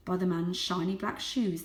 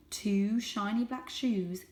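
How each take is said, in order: First: Said in the usual way. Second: Slow, weighty; slow ominous phrase. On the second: A narrator's reading. Narrator repeats the dreaded phrase, slow. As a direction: let the shoes loom.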